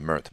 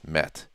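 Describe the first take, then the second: First: The name is said with a Canadian English pronunciation. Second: The name is said with a Turkish pronunciation. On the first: This is how people in Canada say the name. The speaker calls it wrong. "In Canada they call him Mert" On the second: This is how the name is really said. The speaker calls it right. "but he's Met"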